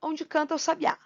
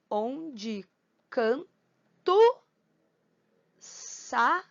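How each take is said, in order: First: Said in the usual way. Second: "Onde canto sabiá" as on-de can-to sa-bi-á, with long pauses; syllable by syllable. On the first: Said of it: "Como é que a gente vai separar". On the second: Shown as a demonstration. Teacher dividing second verse for counting, "Onde canto sabiá" syllable by syllable. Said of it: "separar silabicamente".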